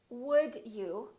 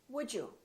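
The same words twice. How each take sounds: First: The D is a plain D before you. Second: The D and you merge into J.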